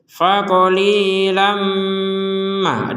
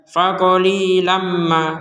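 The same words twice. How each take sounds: First: The m is held with a two-beat nasal hum. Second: The m is short with no held nasal hum. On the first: The speaker calls it right. "dengung dua ketukan" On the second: The speaker calls it wrong. "itu kan nggak ada dengung"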